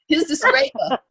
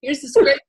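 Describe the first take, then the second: First: Much higher, giggling through Here's the scraper; amused, squeaky repeat of the stranger's line; laughing retake. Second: A hint of a casual street accent, a little louder; mild put-on accent handing over the scraper; half-hearted accent. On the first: Retold or imitated. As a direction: crack yourself up on the retry. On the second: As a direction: try the helpful stranger's accent and give up. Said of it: "I don't know how to do the accent".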